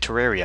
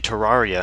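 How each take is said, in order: First: The word is pronounced the American way. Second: The word is pronounced the British way. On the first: "people in America always say Terraria" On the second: "British people, or people in Europe, always say Terraria"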